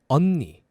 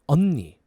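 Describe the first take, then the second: Both takes have the same delivery.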